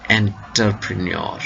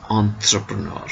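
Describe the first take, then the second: First: Entrepreneur begun with "enter", hard t sounded; Anglicised mispronunciation. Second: Entrepreneur begun with a nasal French "on-" sound; French-style pronunciation. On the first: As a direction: say entrepreneur as spelt, "en-ter-pre-ni-or". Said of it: "not entrepreneur". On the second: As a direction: say entrepreneur the French way, as "on-truh-pruh-nur". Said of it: "should be pronounced as entrepreneur". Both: Shown as a demonstration.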